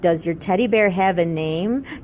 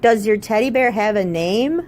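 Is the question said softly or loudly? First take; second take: softly; loudly. First: The question is said at normal, softer volume. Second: The question is said noticeably louder.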